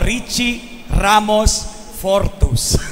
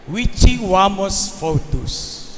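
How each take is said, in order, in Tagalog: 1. Binibigkas ang mga R na malinaw na R. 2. Binibigkas ang mga R na parang W.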